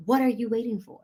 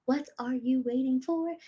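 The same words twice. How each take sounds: First: Said in the usual way. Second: The same question asked again, softer and drawn in; softer repeat. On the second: Shown as a demonstration. Coach urging viewers to sign up, a softer second asking. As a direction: let the repeat drop softer, almost to herself.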